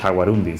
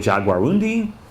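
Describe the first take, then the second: First: It is said with a Spanish pronunciation. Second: It is said with an English pronunciation. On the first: "I just always say it in Spanish" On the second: "Is it would it be a Jaguarundi?"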